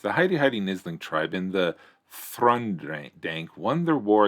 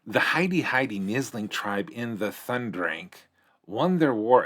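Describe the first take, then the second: First: It is read in the reader's normal voice. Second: It is read in a put-on character voice.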